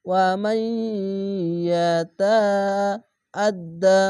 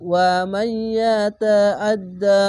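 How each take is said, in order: First: Slow recitation of the word; drawn-out recitation. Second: Louder, chanted Quran recitation with a merged nasal sound; full recitation. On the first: Teacher reciting the word slowly for the students. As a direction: hold the syllables like reciting. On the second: Teacher joining the words into a full chanted recitation. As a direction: recite it out as in prayer, drawing it out. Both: Shown as a demonstration. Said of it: "ইদগামে বা গুন্না".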